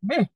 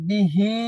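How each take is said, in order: First: The word ends abruptly on the h sound. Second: The word ends with a long i vowel. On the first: "ওয়াকফ করে দিলে বিহ ... এরকম পড়তে হবে" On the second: "বিহি মাদ ছিল"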